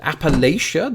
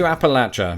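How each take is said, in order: First: "Appalachia" as ap-uh-LAY-sha; most Americans' usage. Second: "Appalachia" as ap-uh-LATCH-uh; locals' pronunciation. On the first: Asking if most Americans are wrong, "Appalachia" said ap-uh-LAY-sha. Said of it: "the usage of most Americans". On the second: Toasting the region as locals say it, "Appalachia" said ap-uh-LATCH-uh. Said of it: "I'd like to do as the locals do". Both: Shown as a demonstration.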